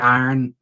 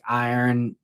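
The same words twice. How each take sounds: First: It is said in a Pittsburgh accent. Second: It is said in a standard accent. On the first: "like I say, like iron" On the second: "is how other people say that word"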